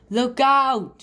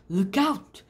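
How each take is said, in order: First: Loud, high alarmed call; shouted warning. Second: Said in the usual way. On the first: Acted. Frog warns of the witch.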